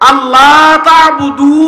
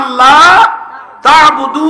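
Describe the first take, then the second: First: The long vowels are cut short. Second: The long vowels are held out. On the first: The speaker calls it wrong. "এটা টান ফেলে দিছে" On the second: The speaker calls it right. "আমি আয়াতটা পড়েছি"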